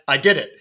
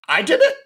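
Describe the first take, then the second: First: It is read flatly, without any inflection. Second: It is said with expressive, questioning inflection.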